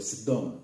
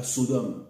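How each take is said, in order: First: "Sedom" said "sèd-DOM", as in Hebrew; Hebrew pronunciation. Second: "Sodome" said the French way, "so-DOM"; French pronunciation. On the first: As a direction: open è in the first syllable of "Sedom". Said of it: "C'est comme ça que disent les Hébreux". (« Sedom » à l'hébraïque, avec un è ouvert) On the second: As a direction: round o in the first syllable of "Sodome". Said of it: "ils ne disaient pas Sodome". (« Sodome » à la française, avec un o) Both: Shown as a demonstration.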